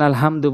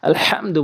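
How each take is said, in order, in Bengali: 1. h একটি সাধারণ, হালকা শ্বাস। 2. h গলার গভীর থেকে উচ্চারিত হয়। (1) "এই ছোট হা এনে উচ্চারণ করি" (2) "ওখানে বড় হা রয়েছে"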